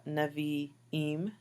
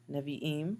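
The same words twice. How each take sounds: First: Nevi'im: ne-vi-IM, two i sounds; model pronunciation. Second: Nevi'im said again, quicker; repeated model. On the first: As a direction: say Nevi'im slowly. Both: Shown as a demonstration. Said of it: "get the pronunciations right".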